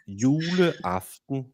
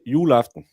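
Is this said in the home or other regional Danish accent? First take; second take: other; home. First: It is said in a different Danish regional accent. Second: It is said in the speaker's own regional accent. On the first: "if you live in the other parts of Denmark" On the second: "We say juleaften"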